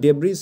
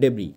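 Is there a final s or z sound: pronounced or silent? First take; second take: pronounced; silent. First: The word ends with an audible z sound. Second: The word ends on a vowel, no z sound. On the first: The speaker calls it wrong. "উচ্চারণটা কিন্তু ডেব্রিজ হবে না" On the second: The speaker calls it right. "এসটা কিন্তু silent থাকবে"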